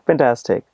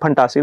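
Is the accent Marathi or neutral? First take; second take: neutral; Marathi. First: It is said with a neutral accent. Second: It is said with a Marathi accent. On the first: The speaker calls it right. "हिल से" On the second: The speaker calls it wrong. "हिल not से"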